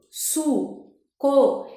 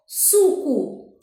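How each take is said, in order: First: "suco" in two syllables with a clear pause; split into syllables. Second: Said in the usual way. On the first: Shown as a demonstration. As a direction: break "suco" apart, each syllable on its own. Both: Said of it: "em cada sílaba".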